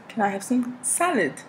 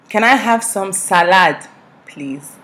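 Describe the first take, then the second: First: Put-on higher-pitched polite English accent. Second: Loud, higher Nigerian-accented request; broken-down Nigerian English. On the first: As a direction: repeat the request in a careful English accent. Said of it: "with my English accent". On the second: Shown as a demonstration. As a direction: spell it out loudly in a Nigerian accent. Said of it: "I can break down English".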